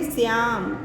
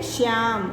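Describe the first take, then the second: First: "श्याम" opened with s, as "syaam"; incorrect form. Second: "श्याम" with a clear sh, as "shyaam"; correct pronunciation. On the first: Teacher contrasts two spellings for students, incorrect form. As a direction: replace the sh of "श्याम" with a plain s. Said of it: "तो इसे क्या पढ़ेंगे". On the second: Teacher lets students hear the difference, correct pronunciation. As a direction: stretch "श्याम" slowly from a full sh. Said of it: "लग रहा है ना अंतर बोलने में". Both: Shown as a demonstration.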